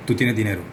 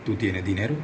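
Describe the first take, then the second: First: "¿Tú tienes dinero?" with the end falling like a statement. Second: "¿tú tienes dinero?" lower, with the pitch rising at the end; rising question. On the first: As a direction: let "dinero" drop so it states. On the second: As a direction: ask it, with the end of "dinero" going up. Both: Shown as a demonstration. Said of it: "teniendo en cuenta mi tono".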